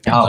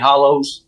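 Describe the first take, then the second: First: The word ends with an 'er' sound. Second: The word ends with an 'oh' sound. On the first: This is the regional Kentucky form. "We say hollows" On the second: This is the form the speaker's region does not use. "We don't say hollows"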